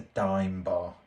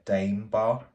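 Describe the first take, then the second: First: The first word rhymes with 'time'. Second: The first word rhymes with 'name'. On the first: The speaker calls it right. "It's a dime bar" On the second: The speaker calls it wrong. "I refuse to call it a Dame bar"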